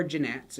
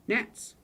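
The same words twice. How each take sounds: First: "gnats" said as "juh-nats"; sounded G. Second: "Gnats" said as "nats"; silent G. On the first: Teacher teasing those who misread it, "gnats" as juh-nats. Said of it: "say it like that". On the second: Teacher giving the proper word for the mnemonic, "Gnats" with silent G. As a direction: say "Gnats" with no G sound at the start. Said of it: "if you wanna just say it". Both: Shown as a demonstration.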